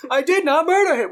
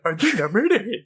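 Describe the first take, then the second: First: High, loud, earnest robot line; robot's earnest delivery. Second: Mocking, laughing echo of the line. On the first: Retold or imitated. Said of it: "the robot says it the way he actually says it". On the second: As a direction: throw the line back mockingly. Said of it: "like, mockingly".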